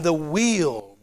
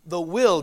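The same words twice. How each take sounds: First: "wheel" with a long ee; distinct "wheel". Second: "will" with a short i; distinct "will". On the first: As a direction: draw out "wheel" slowly. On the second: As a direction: keep "will" short, unlike wheel. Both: Shown as a demonstration. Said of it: "I want to distinguish between".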